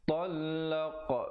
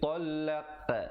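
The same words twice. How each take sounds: First: The final qa is said with rounded lips. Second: The final qa is said with flattened lips. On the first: The speaker calls it right. "bulatkan mulut untuk menghasilkan bunyi qa itu" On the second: The speaker calls it wrong. "Jangan pepeskan jadi talaq. Itu tak betul"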